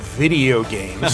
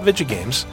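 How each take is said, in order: First: The word is said fully with every syllable clear. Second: The word is squashed into a short, clipped form. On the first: The speaker calls it right. "call them video games" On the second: The speaker calls it wrong. "I should probably drop that pronunciation"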